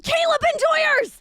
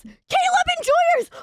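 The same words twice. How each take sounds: First: High, loud call of Caleb Enjoyers; rallying fans, shouting Caleb Enjoyers; excited shout. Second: Caleb Enjoyers stretched slow, higher and loud; repeating the fans' name as a slow, high rally cry; drawn-out shout. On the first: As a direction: cheer the fans' name out. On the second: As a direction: hold the cheer out long. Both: Real, not acted.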